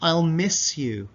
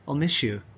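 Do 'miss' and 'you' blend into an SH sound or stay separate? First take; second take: separate; SH sound. First: The S and Y are said as separate sounds. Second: The S and Y merge into an SH sound.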